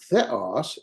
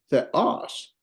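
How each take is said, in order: First: THEOS wrongly stressed on the first syllable; misplaced stress. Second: THEOS stressed on the second syllable; corrected stress. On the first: Teacher showing students the mistake, first syllable stressed. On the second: Teacher correcting the mistake for students, final syllable stressed. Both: Shown as a demonstration. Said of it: "it's not theos".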